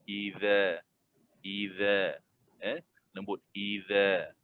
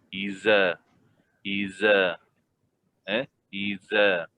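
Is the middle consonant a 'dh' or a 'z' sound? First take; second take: dh; z. First: The consonant is a soft 'dh' sound. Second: The consonant is a buzzing 'z' sound. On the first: The speaker calls it right. "Zal kena keluarkan lidah sedikit" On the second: The speaker calls it wrong. "Kalau zai di dalam, lidah di dalam tak keluar"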